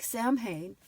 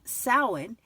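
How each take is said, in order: First: It is read letter by letter as spelled. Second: It is said differently from its spelling. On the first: The speaker calls it wrong. "It's spelled like Samhain" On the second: The speaker calls it right. "it's pronounced Samhain"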